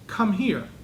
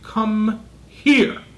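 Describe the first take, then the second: First: It is said in a calm, neutral voice. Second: It is said in a stern, intensified voice. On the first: It is a simple request. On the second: The parent is upset and serious.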